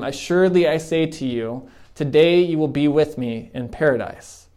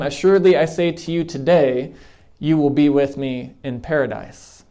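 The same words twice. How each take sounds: First: The pause comes before the word today. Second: The pause comes after the word today.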